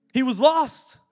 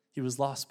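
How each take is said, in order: First: Raised, high and loud on lost; a preacher's loud cry of lost; proclaiming. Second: Said in the usual way. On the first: Acted. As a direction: ring out He was lost, louder and higher. Dramatic retelling of parable.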